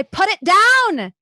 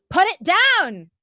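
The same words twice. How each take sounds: First: High, loud, drawn-out yell; angry shout. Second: Loud, high yell as she tugs; angry shout. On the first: GM voicing the flannel girl shouting over the bucket. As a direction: hurl the words at her. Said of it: "being thrown at you". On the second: GM voicing the flannel girl tugging the bucket, angry. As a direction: shout it while wrestling the bucket. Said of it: "pulling at it angrily". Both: A narrator's reading.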